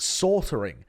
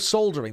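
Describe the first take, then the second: First: It is said in an American pronunciation. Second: It is said in a non-American pronunciation. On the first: "in America they call it sortering" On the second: "Instead of soldering"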